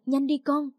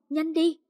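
First: Urgent, hurried plea. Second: Higher, more pressing repeat; more urgent plea. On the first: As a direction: hurry her along. (giục gấp) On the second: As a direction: push harder, pitch up. (giục gấp hơn, giọng cao) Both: A narrator's reading. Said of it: "hớt hải".

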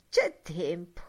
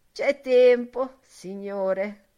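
First: Said in the usual way. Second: First take. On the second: Acted. Old woman reassures.

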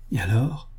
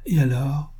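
First: Quieter, holding breath; repeated, softer. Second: A hushed, eager question; breathless suspense. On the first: Bill repeats his question to the girl, hushed. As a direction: ask again, barely breathing. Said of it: "répéta Bill". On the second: Bill presses the girl, holding his breath in suspense. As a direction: hold your breath and ask. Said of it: "suspendant son haleine". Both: A narrator's reading.

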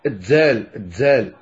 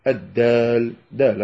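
First: الدال said with a dz sound, as "ad-dzal"; Sous pronunciation. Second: Said in the usual way. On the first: Shown as a demonstration. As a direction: blend a z into the d of الدال. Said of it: "يمزجون الدال بالزاي". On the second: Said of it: "بهذا الشكل الذي ذكرت لكم".

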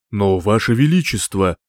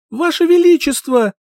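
First: Said in the usual way. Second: High, loud cry for help; desperate shout. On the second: Acted. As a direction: scream it with all your strength. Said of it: "Закричала, что было сил".

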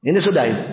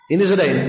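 Both takes have the same delivery.

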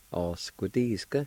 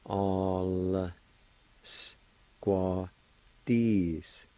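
First: "All squaw Disc" joined into one connected word; whole-word pronunciation. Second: ALL, S, QUA, DISC drawn out with gaps; syllable-by-syllable pronunciation. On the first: Teacher giving learners the finished word, said connected. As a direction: run "All squaw Disc" together smoothly. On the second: Teacher showing learners the L with A sound, syllable by syllable. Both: Shown as a demonstration. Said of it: "pronounce the L sound with the A like this".

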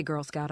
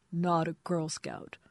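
First: Said in the usual way. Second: Slow, slurred protest, drawn out; a drunk man insisting, slowed right down; drunken correction. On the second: Acted. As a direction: drag the words like a sloppy drunk.

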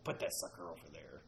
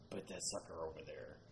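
First: Low gravelly ghost voice. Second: Low, soft imitated ghost voice; low harsh voice. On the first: Retold or imitated. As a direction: rasp it low like a ghost recording. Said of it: "this gravelly voice saying". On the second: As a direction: growl it low like the recording. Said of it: "a male voice saying".

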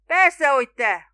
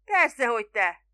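First: Slow, very loud and raised in pitch; booming shout. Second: Loud, brisk answer; emphatic reply. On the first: Spiro answering the doubting boatman, booming. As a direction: boom each word out, exasperated. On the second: Spiro answering the puzzled boatman, emphatically. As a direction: call back as if it were obvious. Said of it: "felelte Spiro". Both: A narrator's reading.

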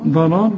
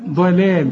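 First: ضلال with dark, heavy l sounds; wrongly heavy lam. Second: ضلال with heavy ض, then thin, light l sounds; light lam. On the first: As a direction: let the heaviness of ض spill into both lams of ضلال. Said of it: "تنفع ضلال دي؟". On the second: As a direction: switch to a light open l after the ض in ضلال. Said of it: "هنا هنقول". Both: Shown as a demonstration.

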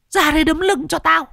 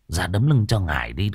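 First: Very high eerie spirit demanding; "Ra đây đấm lưng" ordered in a high ghostly voice; ghost giving orders. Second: Gruff shaman. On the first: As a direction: ghost orders the girl to pound its back, shrill. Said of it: "nó còn vừa ra lệnh". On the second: Shaman scolds the girl. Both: Acted.

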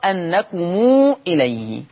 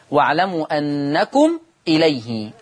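First: أنكم إليه with the م joined to a long u, slow; أنكمو إليه drawn out slowly; linked mim of plural. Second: Said in the usual way. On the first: Shown as a demonstration. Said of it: "تقرأ أنكم إليه". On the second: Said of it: "قرأ ورش بصلة ميم الجمع".

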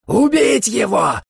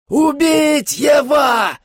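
First: High, slow screaming vampire. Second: Very high, slower, louder shriek; louder vampire scream. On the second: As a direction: shriek it even harder as the vampire. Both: A narrator's reading. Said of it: "заорал Дарне".

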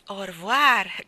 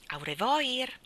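First: Au revoir said in French, o-rvuar, called out; proper French Au revoir, shouted across rooms; French pronunciation. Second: Au revoir said the Italian way, every letter sounded, au-re-voir; read as spelled. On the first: Housekeeper calling from the next room, Au revoir in French. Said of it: "strillò missus Brill". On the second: Jane reading the letter aloud, Au revoir spelled out. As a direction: Au revoir read literally, not as French. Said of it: "Cosa significa au revoir?". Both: Acted.

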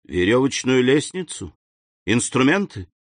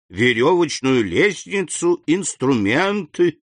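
First: Higher, eager guessing; each item thrown out as a question; exclaimed question. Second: «верёвочную лестницу, инструменты» higher, each item drawn out; confirming list. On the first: Count guessing the gatekeeper's find, eager exclamation. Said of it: "воскликнул граф". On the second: Gatekeeper listing finds to the count, «инструменты» slow and confirming. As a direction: stretch «инструменты» slowly, confirming the find. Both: A narrator's reading.

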